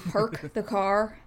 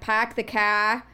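First: The r in park is pronounced. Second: The r in park is dropped. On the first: "as opposed to" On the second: "I hear the Boston accent frequently"

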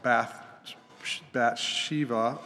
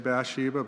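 First: The name is pronounced in a Hebrew-like way. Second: The name is pronounced in the usual English way. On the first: The speaker calls it right. "That would be more accurate in the Hebrew" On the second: The speaker calls it wrong. "really bad when we say Bathsheba"

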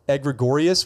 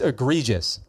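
First: The word is said with extra added sounds. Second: The word is said without any added sounds. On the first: The speaker calls it wrong. "what did I say? ... I added letters in my pronunciation of that word that weren't even in the word" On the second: The speaker calls it right. "It's egregious"

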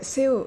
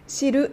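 First: English-style syllable ending in a plain l. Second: Japanese-style syllable with a vowel after the l. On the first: The speaker calls it right. "sil というふうに発音されていますね" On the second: The speaker calls it wrong. "シルではなくて"

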